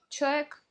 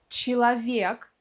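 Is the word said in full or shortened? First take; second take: shortened; full. First: The word is said shortened, syllables dropped. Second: The word is said in full, every syllable. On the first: "в разговорной речи очень часто ... мы произносим как" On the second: "слово «человек»"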